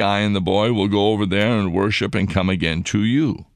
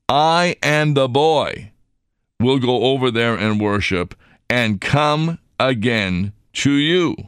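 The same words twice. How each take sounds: First: It is read plainly, without special emphasis. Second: Some words are read with strong emphasis.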